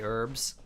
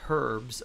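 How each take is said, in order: First: The word begins without an h sound. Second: The word begins with an audible h sound. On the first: This is how the speaker's own community says it. "Why do we say herbs?" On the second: This is how people in another country say it. "I never heard anyone say herbs until ... New Zealand ... this is how it's spelled"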